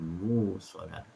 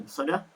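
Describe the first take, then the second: First: A long u vowel replaces the glottal stop. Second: A glottal stop follows the first syllable. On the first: "Hamzah diibdalkan kepada waw" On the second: "haf membaca dengan muqsadah"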